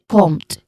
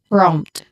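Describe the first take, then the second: First: The R after the P is left out. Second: The R after the P is clearly pronounced. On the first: The speaker calls it wrong. "Not prompt. Usually prompt. Um, the letter R are removed completely" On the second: The speaker calls it right. "both the P, the letter P and the letter R are clearly pronounced"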